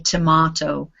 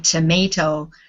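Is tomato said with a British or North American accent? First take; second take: British; North American. First: It is said in a British accent. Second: It is said in a North American accent. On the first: "British people say tomato" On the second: "Canadians and Americans say tomato"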